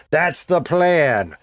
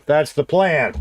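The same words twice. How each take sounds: First: Slow drawn-out repeat. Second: Said in the usual way. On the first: Real, not acted. Streamer to chat, restating the plan slowly. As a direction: stretch every word out slowly.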